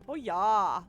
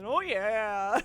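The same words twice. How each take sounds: First: It is said in a Midwestern accent. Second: It is shouted like Kool-Aid Man, no regional accent.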